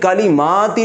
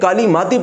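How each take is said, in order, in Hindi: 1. म के बाद का स्वर खींचकर लंबा बोला जाता है। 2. म के बाद का स्वर छोटा रखा जाता है। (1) "खड़ा जबर को एक अलिफ यानी दो हरकत के बराबर खींच कर पढ़ा जाता है" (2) "इसको जबर के मुताबिक ही खींचा जाएगा"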